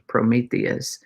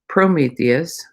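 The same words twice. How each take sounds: First: The stress is on a later syllable. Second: The stress is on the first syllable. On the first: The speaker calls it right. "is how that is" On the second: The speaker calls it wrong. "I put the emphasis on the first syllable"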